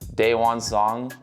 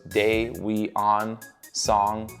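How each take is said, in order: First: The first name has two syllables. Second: The first name has three syllables. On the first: The speaker calls it right. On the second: The speaker calls it wrong.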